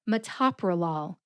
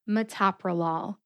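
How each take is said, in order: Both takes have the same delivery.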